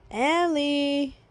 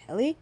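First: Long, stretched-out name; drawn-out call. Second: Short, rising questioning name; brief, tentative acted call. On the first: Acted. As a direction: call out to wake a sleeper. Calling sleeping Ellie second time. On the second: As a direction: check tentatively if someone is awake. Checking on sleeping Ellie.

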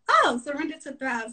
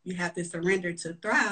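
First: Sudden dawning realization; an "oh" of discovery, higher; realizing, pitched up. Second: Said in the usual way. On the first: Retold or imitated. Realization of the mantra.

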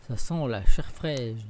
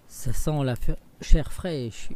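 First: Louder, slow ogre growl; ogre's growl. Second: Loud booming ogre bellow; ogre's roar. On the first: Ogre tells his wife he smells fresh meat, growling. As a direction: drag it out like a hungry ogre. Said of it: "l'ogre arriva". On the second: Ogre comes home smelling fresh meat, roaring. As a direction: roar it out, sniffing for children. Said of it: "hurla l'ogre de sa grosse voix". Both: Acted.

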